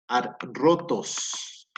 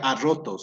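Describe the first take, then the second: First: The double R is split across two syllables. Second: The double R is one strong trilled sound. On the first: The speaker calls it right. "Se pronuncian de forma separada" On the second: The speaker calls it wrong. "no se pronuncia arrotos, no, esa pronunciación no"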